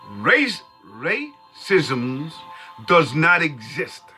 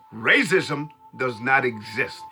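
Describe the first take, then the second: First: It is said slowly. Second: It is said at normal speed.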